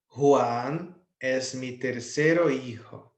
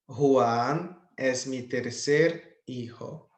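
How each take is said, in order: First: Tercero said slowly in full, before the o is removed; wrong form, slow. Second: Tercer said slowly, with the final o dropped; corrected form, slow. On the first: Teacher to students, slowly reading the uncorrected sentence. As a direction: read tercero hijo slowly, as the form to fix. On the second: Teacher to students, slowly modelling corrected tercer hijo. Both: Shown as a demonstration. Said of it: "vou tirar a letra O no final".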